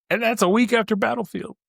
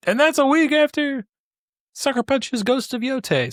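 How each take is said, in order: First: Higher, building eagerness over the packed release schedule; rising excitement. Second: Peak excitement. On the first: Podcaster stacking up release dates, getting more excited. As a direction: pile on the dates with growing excitement. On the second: Podcaster reaching the biggest release, thrilled and much higher. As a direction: hit the last release date at full excitement. Climax of stacked release dates. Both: Real, not acted.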